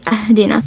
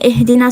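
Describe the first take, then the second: First: The word begins with an a vowel. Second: The word begins with an i vowel. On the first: The speaker calls it wrong. "maybe someone would say" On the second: The speaker calls it right. "instead of saying"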